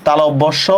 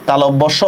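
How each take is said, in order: No difference in how they are said.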